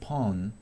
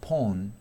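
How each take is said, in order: First: It is said in an American accent. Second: It is said in a British accent. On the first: "en inglés americano" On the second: "en inglés británico"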